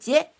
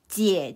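First: The syllable has a light neutral tone. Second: The syllable has a dipping third tone. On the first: "es un tono ligero, o sea, un tono neutro. Su pronunciación es como más uh, ligera" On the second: "Esta tiene la forma como la letra V, es el tercer tono"

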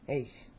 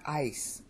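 First: The vowel sounds like English 'ace'. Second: The vowel sounds like English 'ice'. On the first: The speaker calls it right. "that's the way it should be said" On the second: The speaker calls it wrong. "this word here is not ice"

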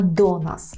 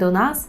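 First: The stress falls on the word do. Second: The stress falls on the word nas. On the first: The speaker calls it right. "а до нас" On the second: The speaker calls it wrong. "Не до нас"

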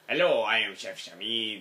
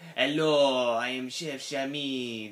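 First: It is spoken in the speaker's ordinary accent. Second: It is spoken in a put-on French accent.

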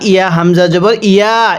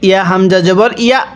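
First: The vowels are drawn out long. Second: The vowels are kept short without drawing out.

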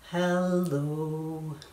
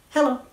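First: It is said slowly. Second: It is said fast.

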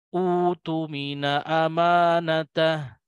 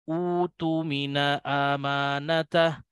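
Both takes have the same delivery.

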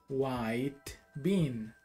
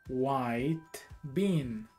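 No difference in how they are said.

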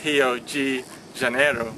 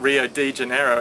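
First: The d in de sounds like j. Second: The d in de sounds plain. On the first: The speaker calls it right. "it's Rio de Janeiro" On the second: The speaker calls it wrong. "is not Rio de Janeiro"

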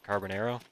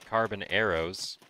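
First: It runs together like one Spanish-sounding word. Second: It is said as two separate English words. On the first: "Almost sounds like a Spanish word, doesn't it? Especially when you say it like that" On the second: "I could say carbon arrows"

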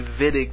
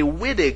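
First: The name begins with a V sound. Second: The name begins with a W sound. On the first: The speaker calls it right. "the W here makes a V sound" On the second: The speaker calls it wrong. "I don't want any of you to call this a Wittig reaction, or I will cry"

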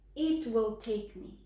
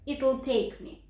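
First: It and will are said as two full words. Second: It and will are squeezed into one contracted word.

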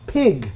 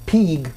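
First: The vowel is a short i sound. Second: The vowel is a long ee sound. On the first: The speaker calls it right. "It's pig" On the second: The speaker calls it wrong. "They're not an E sound, so it's not pig"

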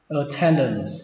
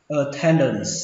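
The two takes are said the same way.

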